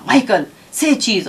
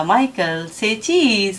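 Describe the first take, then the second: First: Imitated exasperated mother, mildly sharp; retold last-straw command, understated anger; very angry mother. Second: Lightly voiced tender mother, gently coaxing; affectionate coaxing. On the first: Mother at wits' end orders child to pose, furiously. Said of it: "ماں نے بہت غصے سے کہا". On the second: Mother coaxes her child to pose, affectionately. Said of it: "ماں نے بڑے پیار سے کہا".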